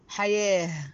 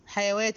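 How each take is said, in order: First: The middle is said with a long a. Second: The middle is said with a w sound. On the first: The speaker calls it right. "كأن الواو دي ألف، فبقت حياة" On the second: The speaker calls it wrong. "ليه ما قلتش حيوات؟"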